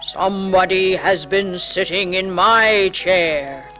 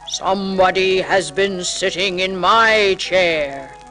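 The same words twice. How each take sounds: First: It is said in a big, deep bear voice. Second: It is said in a big, deep bear voice.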